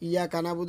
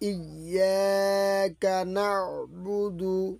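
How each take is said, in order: First: The break comes after iyya. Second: The break comes after iyyaka. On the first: The speaker calls it wrong. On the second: The speaker calls it right.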